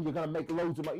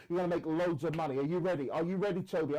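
First: Said in the usual way. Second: Lightly imitated pushy phone saleswoman, stress on gonna; pushy sales pitch. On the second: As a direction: hype him up like a cold caller, mildly. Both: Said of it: "You know how they talk".

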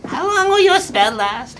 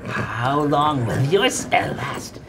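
First: High shrieking monster taunt. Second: Creepy monster taunt. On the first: Monster taunts, much higher. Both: Acted.

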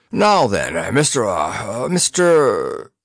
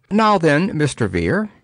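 First: Lofty, drawn-out hesitation; groping for the name, slowly; condescending fumble. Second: Lofty high greeting; patronizing address to the poet; condescending. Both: A narrator's reading. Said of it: "nodded condescendingly".

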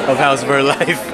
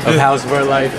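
Both takes have the same delivery.

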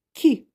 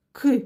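First: Кі palatalized, like "kʲi"; soft Кі, set apart as a single sound; soft consonant. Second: К said hard, like "kɪ", unsoftened; hard К, set apart as a single sound; hard consonant. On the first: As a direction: isolate a softened Кі with an "ee" colour. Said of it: "м'який приголосний". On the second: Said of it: "твердий приголосний". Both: Shown as a demonstration.

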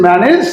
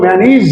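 First: ম্যানেজ with "e" in the last syllable, rising; old "-ej" ending. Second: ম্যানিজ with long "i" in the last syllable; new "-ij" ending. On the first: Teacher recalling the students' way, ম্যানেজ with "-nej". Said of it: "আগে বলেছেন". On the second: Teacher showing the corrected way, ম্যানিজ with "-neez". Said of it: "এখন বলবো". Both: Shown as a demonstration.

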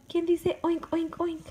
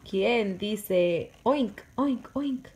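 First: High, loud playful oink question. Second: Loud, slow oink question; reading to baby. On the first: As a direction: squeak it up high like a piglet. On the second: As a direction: stretch the oinks for the baby. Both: Shown as a demonstration. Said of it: "reading to baby".

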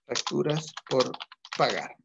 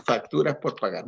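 First: Drawn out slowly, word by word, as if writing it on the board; teacher dictating the entry to the class, slowly; slow dictation. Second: Said in the usual way. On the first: Shown as a demonstration. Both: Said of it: "Facturas por (repeated while writing)".

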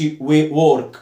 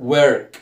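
First: "work" said with an "or" vowel, like "work" spelt out; "work" rhyming with "fork"; mispronunciation demo. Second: "work" said with an "er" vowel, like "werk"; "work" with the right er sound; correct pronunciation. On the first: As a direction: say "work" wrongly as "wawrk". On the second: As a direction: say "work" as "werk", drawn clearly. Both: Shown as a demonstration. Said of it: "ما أقولش".

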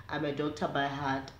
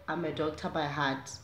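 No difference in how they are said.

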